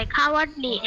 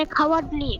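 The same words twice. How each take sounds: First: Cowardly slowly, as "cow-ard-ly"; slow, split-up cowardly for learners; broken into parts. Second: Said in the usual way. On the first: Shown as a demonstration. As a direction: say cowardly piece by piece. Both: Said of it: "ভেঙে ভেঙে বলতে হয়".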